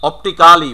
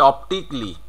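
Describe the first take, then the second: First: অপটিক্যালি as "op-ti-KA-li", louder; full "-ka-li" ending on অপটিক্যালি; local mispronunciation. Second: অপটিকলি said "op-tik-li"; silent A. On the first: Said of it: "বলে থাকি". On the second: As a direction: drop the A in অপটিকলি, ending "-tikli". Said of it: "উচ্চারণ করতে হবে". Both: Shown as a demonstration.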